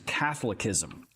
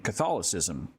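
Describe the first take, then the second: First: The word is pronounced in an altered way. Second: The word is pronounced in the usual way.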